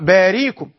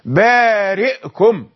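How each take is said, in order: First: The middle consonant is a y sound. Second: The middle consonant is a glottal stop. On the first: The speaker calls it wrong. "لا يقرأ باريكم" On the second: The speaker calls it right. "بالهمزة في حالة سكونها"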